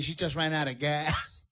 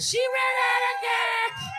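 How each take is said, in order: First: Said in the usual way. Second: Shouted punchline. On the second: Shown as a demonstration. Comic repeating his punchline to the crowd, slow high shout. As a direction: yell "She ran out of gas" stretched and high. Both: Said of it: "you gotta repeat it".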